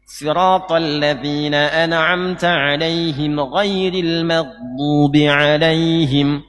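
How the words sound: The first alaihim runs straight into ghairil. The speaker calls it right. "Anda sambungkan dengan ghairi"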